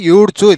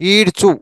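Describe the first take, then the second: First: The word begins with a 'yoo' sound. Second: The word begins with an 'ee' sound. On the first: The speaker calls it wrong. "యూ కాకుండా ఈడ్చు" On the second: The speaker calls it right. "ఈడ్చు ఇలా పలకండి"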